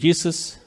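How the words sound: The name is pronounced the English way. This is how English speakers say the name. "Los güeros van a tener que decir Jesus"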